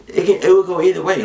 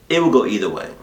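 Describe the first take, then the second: First: "either way" fired out higher, louder and fast; emphatic burst. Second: Said in the usual way. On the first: Real, not acted. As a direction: hammer the point home, quick and loud.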